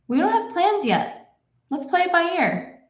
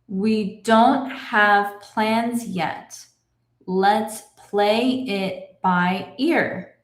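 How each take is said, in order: First: The sentence is read at natural speed. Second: The sentence is read at a moderate pace. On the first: "I will read it in my normal speed" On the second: "a little bit faster"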